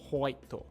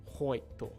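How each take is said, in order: First: It begins with an 'ho' sound from further back. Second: The same.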